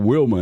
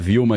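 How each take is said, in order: First: The name starts with a W sound. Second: The name starts with a V sound. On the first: This is how it is said in the United States. "aqui lá é o Wilma ... O W tem som de U" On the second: This is how it is said here. "A gente fala Vilma"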